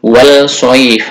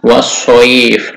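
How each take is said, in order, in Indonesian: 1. Bunyi 'l' dilafalkan sebelum konsonan berikutnya. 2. Bunyi 'l' menyatu dengan konsonan berikutnya yang dobel. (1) "tidak dibaca" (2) "langsung dibaca"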